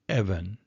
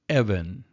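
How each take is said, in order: First: The stress is on the first syllable. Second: The same.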